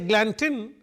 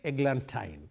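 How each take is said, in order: First: The last syllable does not rhyme with wine. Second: The last syllable rhymes with wine. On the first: The speaker calls it wrong. "it cannot rhyme with wine" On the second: The speaker calls it right. "I have to say eglantine"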